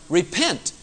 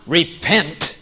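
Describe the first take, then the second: First: The word sounds gentle and inviting. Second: The word sounds harsh and condemning. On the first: The listener is invited to leave old thinking behind. The speaker calls it right. "but repent, for the kingdom of God is at hand" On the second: The listener is being threatened with punishment. The speaker calls it wrong. "Not repent"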